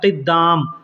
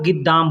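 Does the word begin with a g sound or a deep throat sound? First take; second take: throat sound; g sound. First: It starts with a deep sound from the throat. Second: It starts with a plain g sound. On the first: "क़िद्दाम बोलने के लिए गले के अंदर से निकालना पड़ता है" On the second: "बोलचाल में लोग गिद्दाम बोलते हैं"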